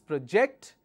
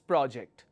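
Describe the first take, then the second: First: The stress is on the second syllable. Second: The stress is on the first syllable. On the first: It is a verb meaning to cast an image. "When your stress is on the second syllable, it is a verb" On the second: It is a noun meaning a piece of work. "When the stress is on the first syllable, it's a noun"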